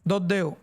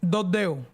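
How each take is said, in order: First: It is said with a western Cuban pronunciation. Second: The same.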